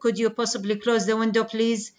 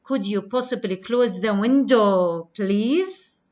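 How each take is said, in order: First: It is said with flat, aggressive intonation. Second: It is said with polite fall-rise intonation.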